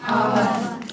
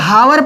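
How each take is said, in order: First: The word begins directly with a vowel sound. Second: The word begins with an audible h sound. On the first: The speaker calls it right. "यहाँ पे एच silent हो जाता है" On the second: The speaker calls it wrong. "इसको अगर हावर पढ़ोगे तब तो बात चिक्कन हो जाएगा"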